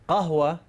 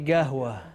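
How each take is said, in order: First: The word begins with a deep q sound. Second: The word begins with a hard g sound.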